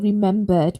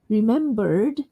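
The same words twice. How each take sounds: First: It ends without an r sound before the d. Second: It ends with an r-coloured er before the d. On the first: "in the British way, without the er sound" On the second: "say the er sound the American way"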